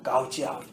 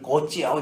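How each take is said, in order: First: The first word sounds like 'gowj'. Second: The first word sounds like 'goach'. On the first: The speaker calls it right. "아빠 no, 까우지 아웃 막 이러면서 핀잔도 들었지만" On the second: The speaker calls it wrong. "제가 발음을 고치 아웃 이랬더니 아빠 no"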